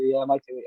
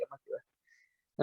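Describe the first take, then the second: First: Said in the usual way. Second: Voiceless, slow, fading off; half-hearted mumbled promise; trailing mutter. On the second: Retold or imitated. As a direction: let it die to a breath. Brushing off wife's suggestion.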